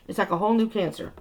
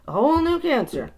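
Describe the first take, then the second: First: Said in the usual way. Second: Whole punched high and loud; stress on whole. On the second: Shown as a demonstration. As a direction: hit the word whole.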